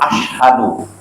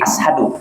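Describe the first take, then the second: First: It has a clear 'sh' sound, not 's'. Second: It has a plain 's' sound, without 'sh'. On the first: The speaker calls it right. "Kalau mereka jelas asyhadu" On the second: The speaker calls it wrong. "orang Indonesia yang kadang susah nyebut shin"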